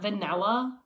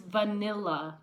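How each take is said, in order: First: The middle syllable is said with an 'a' vowel. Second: The middle syllable is said with an 'i' vowel. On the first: The speaker calls it wrong. "not vanilla. There's no A after the N" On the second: The speaker calls it right. "it's vanilla"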